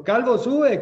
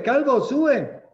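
First: Loud, high jeering chant; mocking taunt. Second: Drawn-out, loud, high singsong jeer; slow mocking taunt. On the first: Boys jeering at the bald prophet on the road, loud mocking chant. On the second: Boys taunting the prophet again, slow loud singsong jeer. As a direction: stretch the taunt out to mock him. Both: A narrator's reading. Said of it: "se burlaban de él".

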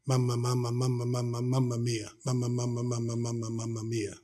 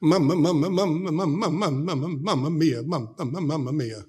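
First: A hint of a frail old woman, fading softer to a murmur; mumbled mama mia repeated, dying away into near silence; lightly voiced grandma, fading and softer; helpless stroke patient. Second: Happy greeting. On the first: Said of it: "all she could say was". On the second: Retold or imitated. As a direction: chirp it out, delighted to see visitors. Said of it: "she would be happy to see us".

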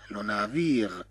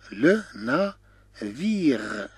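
First: Said in the usual way. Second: "لو نافير" slowly, a pause after each syllable; syllable-by-syllable demo. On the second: Shown as a demonstration. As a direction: stretch "لو نافير" out in three separate pieces. Teacher slows word for learners. (نطق "لو نافير" ببطء مقطعًا مقطعًا)

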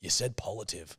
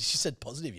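First: "positive" said as "polative"; "positive" garbled into "polative"; mispronounced word. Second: Said in the usual way. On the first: Shown as a demonstration. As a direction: say "positive" with an L in place of the S. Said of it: "You misspoke". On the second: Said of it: "Dior jumped in and said".

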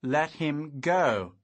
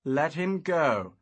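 First: Slow, louder, teeth clenched; through clenched teeth. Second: Slow firm command. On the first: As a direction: growl the order again. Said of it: "through clenched teeth". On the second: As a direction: order him to let go. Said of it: "I commanded". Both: A narrator's reading.

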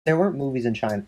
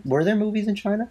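First: Said in the usual way. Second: "Were there movies in China?" asked with the pitch higher and a rising end; corrected into a rising question; questioning rise. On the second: Real, not acted. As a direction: turn it into a real question, lifting "China".

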